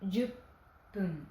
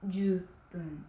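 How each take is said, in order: First: A doubled, held 'p' sound is heard. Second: A single short 'p' sound is heard. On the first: The speaker calls it right. "mais juppun" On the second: The speaker calls it wrong. "On ne dit pas jupun"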